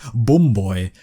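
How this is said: The vowel in bum has a northern English sound. "up north, they say"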